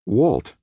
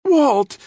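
First: Raised-pitch, falling call of Walt's name; surprised address. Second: Very high, loud shriek of the name; screech. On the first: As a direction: say the name in mild startled recognition. Nick finds Walt unexpectedly. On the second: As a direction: screech it in alarm. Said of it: "Didi screeched". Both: A narrator's reading.

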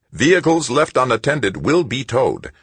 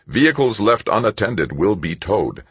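First: Higher, louder irritated machine voice; the robot loses patience; annoyed robot. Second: Even, synthesized machine warning; a lightly voiced police robot. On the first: Acted. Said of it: "Somehow it sounded annoyed". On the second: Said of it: "said the robot's synthesized voice".

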